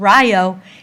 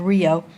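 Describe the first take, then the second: First: Rio is said with a non-Spanish pronunciation. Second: Rio is said with the Spanish pronunciation. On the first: This is how the neighborhood's name is said. "hence the pronunciation of Rio" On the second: This is how the word is said in Spanish. "instead of the Spanish pronunciation of Rio"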